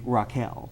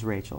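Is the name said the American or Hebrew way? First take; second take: Hebrew; American. First: The name is said in a Hebrew-style way. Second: The name is said in an American way. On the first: This is the original biblical form. "it's actually Raquel" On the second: This is the common modern form. "the regular American pronunciation"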